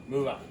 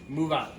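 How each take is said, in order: No difference in how they are said.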